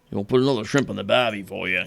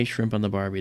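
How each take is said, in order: First: A lightly put-on Australian accent, teasing the cliché; hammed-up Aussie tourist-ad Australian accent; playful mock Australian accent. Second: Said in the usual way. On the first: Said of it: "no one talks like that". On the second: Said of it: "they don't say".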